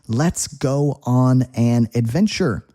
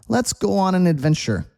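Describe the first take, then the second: First: It is said slowly with each word clear. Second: It is said fast with the words blended. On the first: "is how you would say it slowly" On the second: "when we're speaking quickly, we don't pronounce every single word clearly"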